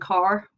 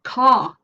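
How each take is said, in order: First: An American accent, with the r pronounced. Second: An English accent, with no r sound after the vowel. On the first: "In General American, car" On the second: "Non-rhotic dialects like English English ... the r is not pronounced"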